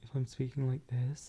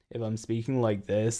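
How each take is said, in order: First: The voice is light and thin. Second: The voice is heavy, intense and buzzy. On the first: "then this voice has a low vocal weight" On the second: "then this voice has a pretty high vocal weight"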